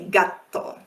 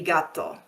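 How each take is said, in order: First: A southern Italian accent with a lengthened T. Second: A northern Italian accent with a short T.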